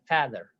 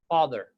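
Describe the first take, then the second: First: The first vowel is light and thin. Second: The first vowel is heavy and full. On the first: The speaker calls it wrong. "We don't say father" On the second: The speaker calls it right. "For the heavy letters, remember the example"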